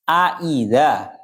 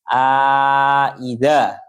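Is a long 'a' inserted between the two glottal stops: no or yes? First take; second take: no; yes. First: Both glottal stops are clear, with no vowel between. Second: Both glottal stops are clear, with long 'a' between. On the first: "ditahqiqkan dua-duanya dalam keadaan tanpa memasukkan alif" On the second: "dalam keadaan memasukkan alif di antara dua hamzah"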